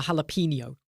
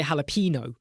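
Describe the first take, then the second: First: "jalapeno" as hal-a-PEEN-yo; "yo" ending. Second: "jalapeno" as hal-a-PEE-no; usual jalapeno. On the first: Streamer trying "jalapeno" with the yo ending. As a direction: end "jalapeno" with a Spanish-style nyo. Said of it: "I've never said yo for jalapeno". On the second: Streamer giving own usual "jalapeno", ending in no. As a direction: end "jalapeno" in plain no, without a Y. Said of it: "I always say jalapeno". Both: Shown as a demonstration.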